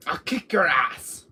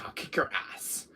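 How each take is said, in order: First: Slow, drawn-out threat in a put-on voice. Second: Breathy whispered threat under the breath. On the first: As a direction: lean into the threat slowly in character. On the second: Acted. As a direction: hiss the threat quietly. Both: Threat said twice, differently.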